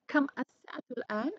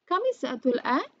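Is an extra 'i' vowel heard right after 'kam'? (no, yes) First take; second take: no; yes. First: Kam is said on its own, with no linking vowel. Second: An added i vowel links kam to the next word. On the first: "Jadi ini bisa di kam" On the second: "dibaca langsung pakai tambahan i"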